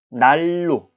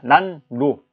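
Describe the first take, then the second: First: The middle consonant is a liquid l sound. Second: The middle consonant is a nasal n sound. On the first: "발음할 땐 날로라고 발음을 하게 되죠" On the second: "우리는 이렇게 씁니다"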